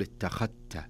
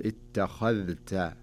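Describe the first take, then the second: First: اتخذت with the ذ merged into the ت; the mistaken assimilated اتخذت; wrong merged form. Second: اتخذت slow with the ذ clearly sounded before the ت; the correct unassimilated اتخذت; correct clear form. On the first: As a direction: say اتخذت as "ittakhatt", dhal assimilated. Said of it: "ما يصح إني أقول". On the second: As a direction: say اتخذت carefully, dhal kept distinct. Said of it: "لكن نحن نقول". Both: Shown as a demonstration.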